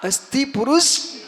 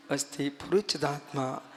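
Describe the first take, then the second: First: Slow, forceful lead for a crowd to repeat; loud call. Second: Soft, low meditative recitation. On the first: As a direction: call it out loudly, stretching the last word. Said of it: "और जोर से बोलो". (जोर से बुलवाते हुए) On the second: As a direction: say it inwardly, hushed and low, as if sitting in meditation. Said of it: "अब ध्यान करने बैठो". (ध्यान में धीमे, मंद स्वर में) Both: Shown as a demonstration.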